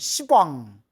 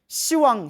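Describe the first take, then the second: First: A hard p sound comes before wang. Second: No p sound comes before wang. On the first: It sounds harsh, like a swear word. The speaker calls it wrong. "발음이 너무 세기 때문에 십왕, 욕 같잖아요" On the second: It sounds softer and more respectful. The speaker calls it right. "발음을 낮춰서 시왕이라고 부르는 거예요"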